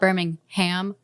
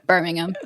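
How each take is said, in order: First: It is pronounced the American, Alabama way. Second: It is pronounced the British way.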